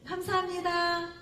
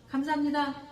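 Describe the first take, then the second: First: It is said warmly, with the mouth wide open. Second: It is said flatly, with little open-mouthed energy. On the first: The thanks comes sincerely from the heart. The speaker calls it right. "이렇게 입술을 쫙 벌리고 믿음에 우러나서" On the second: The thanks is only a formality. The speaker calls it wrong. "이런 게 아니잖아요"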